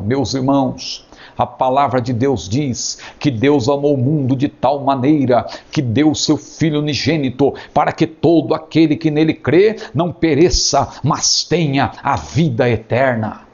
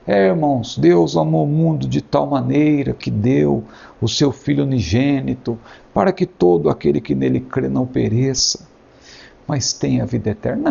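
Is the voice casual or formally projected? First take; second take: formally projected; casual. First: It is said in a formal, projected voice. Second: It is said in a casual, unprojected voice.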